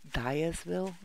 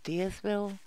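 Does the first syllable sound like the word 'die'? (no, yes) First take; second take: yes; no. First: The first syllable sounds like the word die. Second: The first syllable does not sound like die. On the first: This follows the name's link to dying. "I think it's meant to be pronounced Dyersville because it's 7 days to die" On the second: This is how many people say it. "a lot of people pronounce it Dyersville"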